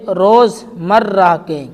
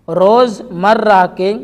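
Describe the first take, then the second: No difference in how they are said.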